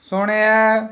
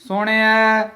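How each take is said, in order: No difference in how they are said.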